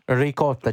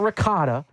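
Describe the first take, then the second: First: It is said with an Italian pronunciation. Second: It is said with an American English pronunciation. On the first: The speaker calls it right. "as the Italian in the room, I have to stay true to my roots" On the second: The speaker calls it wrong. "not ricotta"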